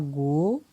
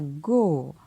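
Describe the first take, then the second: First: The syllable is said on a rising tone. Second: The syllable is said on a falling tone. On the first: "Un ton montant" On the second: "Et un ton descendant"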